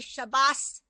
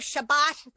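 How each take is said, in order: First: The word ends with an S sound. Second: The word ends with a T sound. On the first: "they'll say Shabbos" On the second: "instead of Shabbat"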